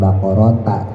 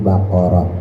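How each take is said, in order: First: The word ends with a t sound and vowel. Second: The word ends with a breathy h sound. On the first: The speaker calls it wrong. "bukan bakorota" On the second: The speaker calls it right. "tapi bakoroh"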